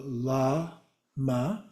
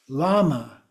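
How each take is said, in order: First: "lama" very slowly, a gap after "la"; divided syllables. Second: Said in the usual way. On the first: Shown as a demonstration. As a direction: break "lama" into la, then ma, softly. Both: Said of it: "You just divide in the middle".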